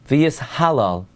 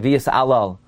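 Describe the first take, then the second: First: The h sound before alal is clearly pronounced. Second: The h sound before alal is dropped. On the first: The speaker calls it right. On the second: The speaker calls it wrong. "A lot of people say v'yis alal"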